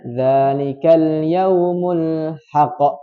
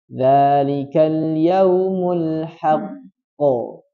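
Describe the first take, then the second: First: The final q bounces without being held first. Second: The final q is held, then bounced. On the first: The speaker calls it wrong. "Jangan dibaca" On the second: The speaker calls it right. "Yang betul ditasydidkan baru dipantulkan"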